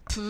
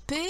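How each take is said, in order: First: "P" as its bare sound, a puffed "peu"; letter sound. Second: Said in the usual way. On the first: Shown as a demonstration. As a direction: sound out "P" rather than naming the letter. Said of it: "beaucoup de sons à se dire". (« P » prononcé comme un son, « peu ») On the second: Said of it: "et de lettres à chercher".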